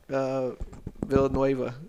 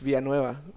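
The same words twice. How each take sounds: First: The name is said with English-style sounds. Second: The name is said with Spanish-style sounds. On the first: The speaker calls it wrong. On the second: The speaker calls it right.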